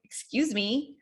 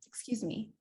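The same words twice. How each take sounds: First: Pointed, indignant "excuse me"; rude tone. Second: Soft, gentle "excuse me"; polite tone. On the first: Coach showing the wrong tone to interrupt with, rude. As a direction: say it with attitude, as if affronted. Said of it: "it's also your tone, the way that you say". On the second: Coach showing how to interrupt nicely, soft and polite. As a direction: say it softly and politely, without attitude. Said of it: "that's very different than". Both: Shown as a demonstration.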